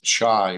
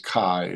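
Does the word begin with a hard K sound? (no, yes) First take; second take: no; yes. First: The word does not begin with a K sound. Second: The word begins with a hard K sound. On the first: The speaker calls it wrong. "is not pronounced as chi" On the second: The speaker calls it right. "so it's a hard K sound"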